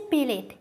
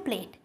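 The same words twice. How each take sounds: First: "প্লেট" said as "pe-let", with an added vowel; colloquial pronunciation. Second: Said in the usual way. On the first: Shown as a demonstration. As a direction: break the pl of "প্লেট" into two syllables, pe-let. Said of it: "প্লেট থেকে কি আসছে?". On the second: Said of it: "শব্দটা কি ছিল?".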